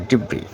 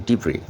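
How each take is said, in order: No difference in how they are said.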